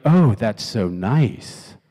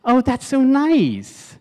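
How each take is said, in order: First: Low, very slow, drawn-out reply; lukewarm, stretched-out politeness; unimpressed response. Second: Very high, drawn-out cooing; hammed-up delighted sweetness; gushing response. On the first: Acted. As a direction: drag it out as if underwhelmed. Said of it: "or she could be like". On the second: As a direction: swoon over it in a high voice. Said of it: "here's how she could have responded".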